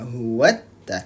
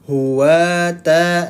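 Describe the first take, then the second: First: The t sound is doubled and pressed. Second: The t sound is single, not pressed. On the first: "kalau ditekan jadi dia sudah masuk ke hurufnya" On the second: "kalau tidak ditekan, dia bacanya hanya seperti ini saja"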